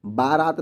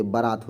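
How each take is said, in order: First: बारात with a long first a, baaraat; बारात stretched as baa-raat to show the wrong form. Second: बारात with a short first vowel, barat; बारात said as ba-raat, first syllable short; correct form. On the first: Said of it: "बारात नहीं होती है". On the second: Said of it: "बारात होती है". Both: Shown as a demonstration.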